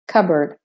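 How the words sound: The R sounds are clearly pronounced.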